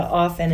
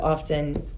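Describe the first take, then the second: First: The word is said with a silent T. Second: The word is said with the T pronounced. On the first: The speaker calls it right. "switch over to often" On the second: The speaker calls it wrong. "instead of often"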